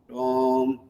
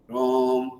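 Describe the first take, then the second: Both takes have the same delivery.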